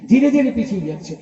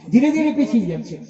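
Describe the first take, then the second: No difference in how they are said.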